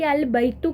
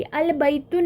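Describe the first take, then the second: First: अल बैतु ending cleanly on u, no n; अल बैतु, no nunation; correct without tanween. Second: अल बैतुन with a final n sound added; अल बैतुन with the extra n; wrong with tanween. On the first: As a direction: say अल बैतु with a short final u. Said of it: "बल्कि अल बैतु कहना है". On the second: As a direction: say अल बैतुन ending on the nasal un, the mistake. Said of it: "नहीं आपने बोलना है". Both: Shown as a demonstration.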